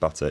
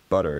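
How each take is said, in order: First: The middle t is a clear t. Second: The middle t is a quick tap. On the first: "butter in the U K" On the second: "more like butter in the U S"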